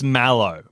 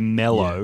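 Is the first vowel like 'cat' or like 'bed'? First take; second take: cat; bed. First: The first vowel sounds like the 'a' in cat. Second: The first vowel sounds like the 'e' in bed. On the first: "I think it's mallow" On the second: "I think Australians say mellow"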